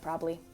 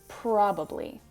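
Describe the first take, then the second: First: The second b sound is dropped. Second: The second b sound is clearly pronounced. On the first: This is casual everyday conversation. "I'm just going to say probably" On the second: This is careful speech for public speaking. "with that extra B"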